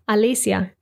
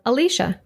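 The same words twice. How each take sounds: First: It is said with Spanish pronunciation. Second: It is said with English pronunciation. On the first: "I'll read the Spanish pronunciation first" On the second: "followed by the English pronunciation"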